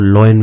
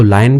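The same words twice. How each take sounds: First: लॉयन said law-yan with a rounded aw; other way to say lion. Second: लायन said laa-yan with an open aa; one way to say lion. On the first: Teacher shows students the second way to say lion. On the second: Teacher shows students the first way to say lion. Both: Shown as a demonstration. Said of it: "इसको लायन भी पढ़ते हैं और लॉयन भी पढ़ते हैं".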